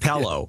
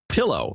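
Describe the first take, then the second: First: The first vowel sounds like "peh", Midwestern style. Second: The first vowel sounds like "pih", general style. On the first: "Midwestern pronunciations I picked up from my mother" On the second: "I now say milk and pillow"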